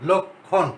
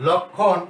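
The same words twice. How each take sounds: First: লক্ষণ said as লোকখন, o sound after ল; pronunciation demo. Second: লক্ষণ said as লোকখন with a doubled kh; pronunciation demo. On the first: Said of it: "উচ্চারণের সূত্র অনুযায়ী". (ওকার দিয়ে লক্ষণ উচ্চারণ) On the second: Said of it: "উচ্চারণের সময়". (লক্ষণ শব্দটি লোকখন করে উচ্চারণ) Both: Shown as a demonstration.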